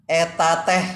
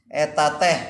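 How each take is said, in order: No difference in how they are said.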